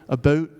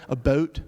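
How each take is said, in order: No difference in how they are said.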